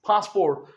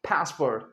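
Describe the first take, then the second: First: The first vowel is a long open 'ah' sound. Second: The first vowel is a flat 'a' as in cat. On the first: "हम कहते हैं पास" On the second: "American कहेंगे पासपोर्ट"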